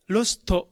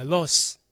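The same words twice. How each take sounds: First: Lost said as "ro-su-to"; katakana final vowel. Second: Lost cut to "los"; dropped final consonant. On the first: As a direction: add a full "to" to "lost". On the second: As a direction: say "lost" without the t. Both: Shown as a demonstration. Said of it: "じゃなくて".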